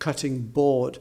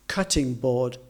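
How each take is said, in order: First: The stress falls on the second word. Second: The stress falls on the first word. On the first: The speaker calls it wrong. "rather than cutting board" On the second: The speaker calls it right. "we would put the emphasis on the adjective rather than the noun"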